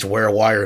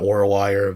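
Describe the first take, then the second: First: The first syllable sounds like 'ware'. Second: The first syllable sounds like 'war'. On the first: The speaker calls it right. "It is Warewire" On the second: The speaker calls it wrong. "not Warwire"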